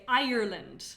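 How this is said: The word is said with three syllables. This is how Americans say it. "Americans add three, syllables"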